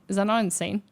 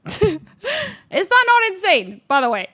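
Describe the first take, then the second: First: Said in the usual way. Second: High and loud, laughing through it, slow; laughing disbelief. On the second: Real, not acted. Retelling the ex's betrayal to viewers, laughing high squeal.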